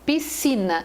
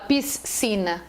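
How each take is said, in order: First: The S and C make one sound. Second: The S and C are sounded separately. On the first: The speaker calls it right. "a pessoa fala piscina. Eu tenho duas letras, um som" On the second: The speaker calls it wrong. "Ninguém fala piscina"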